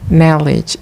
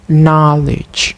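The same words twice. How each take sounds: First: The vowel is replaced with a different sound. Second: The vowel is the standard English sound. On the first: The speaker calls it wrong. "The learner commonly pronounce it as a knowledge" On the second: The speaker calls it right. "instead of knowledge"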